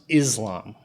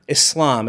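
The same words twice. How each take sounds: First: The middle consonant is a buzzing Z sound. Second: The middle consonant is a hissing S sound. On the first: The speaker calls it wrong. "It's not pronounced Islam" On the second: The speaker calls it right. "which is pronounced Islam"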